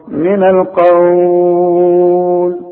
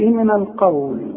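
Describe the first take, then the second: First: The long vowel is held for six counts. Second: The long vowel is held for two counts. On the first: "ستة" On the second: "حركتين"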